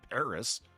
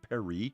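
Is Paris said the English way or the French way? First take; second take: English; French. First: It is said the English way, with a final s. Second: It is said the French way, without a final s. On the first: "it's closer than, you know, Paris" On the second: "I can't say it with a French accent, but it's closer"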